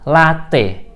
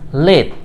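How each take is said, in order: First: "latte" read as written, la-te, two syllables; "latte" spoken as two written syllables, la-te; spelling pronunciation. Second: "late" said as one syllable, /leit/; "late" as a single syllable; real pronunciation. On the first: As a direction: sound out "latte" letter by letter as la-te. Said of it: "Penulisannya memang dua suku kata". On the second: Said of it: "hanya satu suku kata". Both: Shown as a demonstration.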